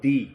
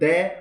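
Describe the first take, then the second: First: The word ends in an 'ee' vowel. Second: The word ends in an 'eh' vowel. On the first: "दे और दी दो ही शब्द बोले जाते हैं" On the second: "दे और दी दो ही शब्द बोले जाते हैं"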